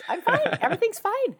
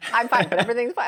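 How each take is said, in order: First: It is said in a very high voice. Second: It is said at normal speaking pitch.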